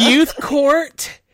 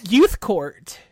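First: "youth court" loud and high, laughing; emphatic youth court. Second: "Youth court" said clearly with a falling tune; clarifying repeat. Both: Real, not acted. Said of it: "Oh, youth what?".

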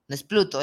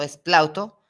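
First: Pluto said as the wrong name, plain u; name the mistaken Pluto in passing; mispronouncing Pluto on purpose. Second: Plauto said with the diphthong au, plawto, a little louder; correct name Plauto. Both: Shown as a demonstration.

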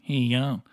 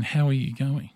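First: "How you going" squashed into one word; words run together. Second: "How are you going" with each word distinct; words said separately. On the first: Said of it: "turns several words into one". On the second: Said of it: "He is saying". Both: Shown as a demonstration.

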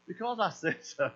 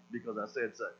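First: Said in the usual way. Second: Low, soft, final parental command; stern command. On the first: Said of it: "And he's just like". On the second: Retold or imitated. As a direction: lay down the law, quiet and flat-out final. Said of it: "So now it's just gonna be the command".

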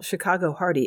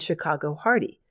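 First: Chicago leaned on, falling after; Chicago stressed, hardy let fall. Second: Said in the usual way. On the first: Shown as a demonstration. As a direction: punch Chicago as a wry pun. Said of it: "if we're talking about Chicago, it must be hardy". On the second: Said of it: "if we're talking about Chicago".

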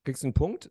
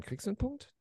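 First: Said in the usual way. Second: High, urgent repeat of the question; high pleading question. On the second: Real, not acted. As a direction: ask again much higher, pressing. (hoch und drängend nachgefragt)

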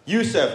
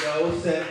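First: Yusef said yoo-sef, with a U sound; correct pronunciation. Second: Yosef said with an O sound, yo-sef; teacher's mispronunciation. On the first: Comic saying Yusef his own way, yoo-sef. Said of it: "my name is spelled Y U S E F". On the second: Imitating the English teacher saying Yosef as yo-sef. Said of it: "I used to be called Yosef". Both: Shown as a demonstration.

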